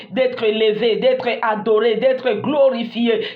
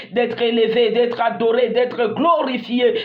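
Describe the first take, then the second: The two takes are said the same way.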